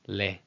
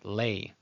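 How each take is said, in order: First: The vowel is a short plain 'e' sound. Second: The vowel glides like 'ay', a diphthong.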